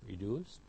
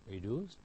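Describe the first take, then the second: No difference in how they are said.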